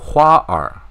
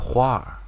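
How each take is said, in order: First: The r sound is said as a separate syllable. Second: The r sound merges into one syllable. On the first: The speaker calls it wrong. "Don't just do" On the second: The speaker calls it right. "make this together"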